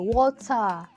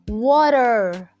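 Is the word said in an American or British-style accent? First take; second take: British; American. First: It is said in a British-style accent. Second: It is said in an American accent. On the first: "as the British colonized countries say" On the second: "as the Americans say"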